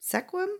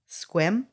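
First: The first vowel is pronounced, giving two syllables. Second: The first vowel is dropped, giving one syllable. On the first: The speaker calls it wrong. "It's not bad" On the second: The speaker calls it right. "Take out the E and pronounce it like you would without the E"

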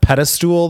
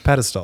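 First: The last syllable sounds like 'stool'. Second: The last syllable sounds like 'stull'. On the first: The speaker calls it wrong. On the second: The speaker calls it right.

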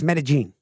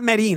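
First: The name is said with Spanish sounds. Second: The name is said with English sounds. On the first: The speaker calls it right. "It's Medellin" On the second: The speaker calls it wrong. "It's not Medellin"

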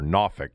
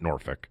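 First: It is said with the local Virginia pronunciation. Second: It is said with a non-local pronunciation. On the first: The speaker calls it right. "That's how the people from down there, you know, pronounce it" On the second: The speaker calls it wrong. "not Norfolk"

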